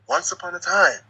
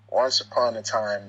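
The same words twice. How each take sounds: First: It is said expressively, with rises and falls. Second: It is said flatly, without rises and falls.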